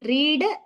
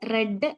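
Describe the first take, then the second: First: The vowel is a long 'ee' sound. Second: The vowel is a short 'e' sound. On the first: It is the present tense form. "റീഡ് എന്ന് പറഞ്ഞാല് വായിക്കുക" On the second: It is the past tense form. "Past tense V two form വരുന്നത് റെഡ് എന്നാണ്"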